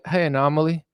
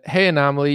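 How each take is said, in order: First: It is said in a put-on Australian accent. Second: It is said in his normal American accent.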